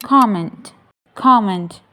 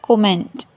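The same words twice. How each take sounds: First: Comment as KOM-ment, first syllable strong; correct pronunciation. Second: Comment as ko-MENT, full second syllable; wrong pronunciation. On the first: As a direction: stress the start of comment, open O. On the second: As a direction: push comment onto its last syllable. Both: Shown as a demonstration. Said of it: "not comment".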